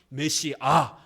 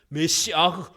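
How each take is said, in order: First: The word ends plainly on a vowel. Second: The word ends with a breathy h sound. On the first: This is the form carried over through Greek. "헬라어로 번역이 되면서 ... 메시아 이렇게 표현하는 겁니다" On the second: This is the original Hebrew form. "메시아흐라는 히브리어입니다"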